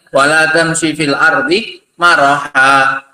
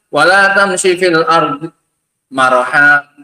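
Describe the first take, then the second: First: There is no pause after fil ardi. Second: There is a pause after fil ardi. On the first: It forbids walking on the earth arrogantly. The speaker calls it right. "Harus di situ" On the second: It forbids walking on the earth at all. The speaker calls it wrong. "jangan bilang"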